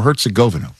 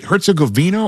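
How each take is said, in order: First: "Herzegovina" as hert-suh-GO-vuh-nuh; stress on the GO. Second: "Herzegovina" as hert-suh-go-VEE-nuh; stress on the VEE. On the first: Host offering the other way to say "Herzegovina", stressing GO. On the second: Host offering one way to say "Herzegovina", stressing a long VEE. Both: Shown as a demonstration. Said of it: "Is it Herzegovina or Herzegovina?".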